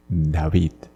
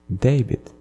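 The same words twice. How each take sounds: First: David the Spanish way, dah-VEED; Spanish-style "David", ending on a long ee; Spanish pronunciation. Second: David the English way, DAY-vid, pitch lifting; English-style "David" with a long ay; English pronunciation. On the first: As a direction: say "David" as in Spanish, open ah and stress on the end. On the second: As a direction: say "David" as in English, stressed on the first syllable. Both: Shown as a demonstration. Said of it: "You translate even the name".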